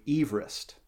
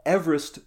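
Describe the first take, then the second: First: Everest with a long first E, as in "eve"; original pronunciation. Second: Everest with a short first E, as in "ever"; common mispronunciation. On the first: Host corrects the surveyor's name, Everest as EVE-rist. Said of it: "You pronounced his name". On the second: Host gives fun fact on the name, Everest as EV-er-est. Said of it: "not how you actually pronounced his name". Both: Shown as a demonstration.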